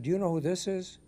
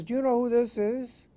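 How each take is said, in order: First: Higher-pitched, moderately voiced challenge; acted operator's probing question; turning the question back. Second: High, loud, imperious British officer; mock-outraged British bigwig on the line; very British accent. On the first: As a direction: ask it back, lifting the pitch without shouting. Operator turns admiral's question back. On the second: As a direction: demand it in a haughty British accent, pitched way up. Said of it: "said this in a very British accent".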